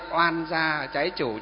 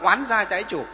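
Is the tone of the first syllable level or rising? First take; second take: level; rising. First: The first syllable has a level tone. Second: The first syllable has a rising tone. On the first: This is the easier everyday form. "cho nó nhẹ nhàng đi một chút" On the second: This is the standard form found in books. "trong sách nói chuẩn nó là oán gia trái chủ"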